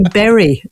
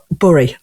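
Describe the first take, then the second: First: Imitated correction to "berry", with the e of "bed"; "berry" said clearly the non-northern way; standard "berry". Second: "bury" as "burry"; northern English vowel in "bury". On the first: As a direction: say "berry" with an open e, as in "merry". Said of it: "they don't understand that here in Adelaide". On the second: Shown as a demonstration. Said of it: "like I used to say".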